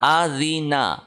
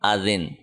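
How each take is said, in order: First: The word ends with a final vowel. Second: The word ends on a bare consonant. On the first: The word is read in running speech. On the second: The reader stops at this word.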